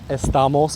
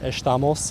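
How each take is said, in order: First: It is said in a non-Rio Brazilian accent. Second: It is said in a Rio de Janeiro accent. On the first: "or perhaps uh, estamos, which is we are" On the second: "they pronounce it estamos"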